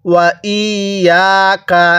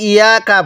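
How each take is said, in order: First: ওয়া ইয়াকা slowly, with a doubled y; measured ওয়া ইয়াকা with long vowels; clear tashdid. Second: ইয়াকা said short with a single y; quick, undoubled ইয়াকা; missing tashdid. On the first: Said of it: "আবার বলুন". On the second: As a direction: toss off ইয়াকা with no doubling. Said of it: "অনেকে ইয়াকা পড়ি". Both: Shown as a demonstration.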